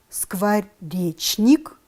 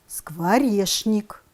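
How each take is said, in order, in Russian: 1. Читается точно так, как написано. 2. Произносится так, как обычно говорят. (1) "Пишем" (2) "произносим"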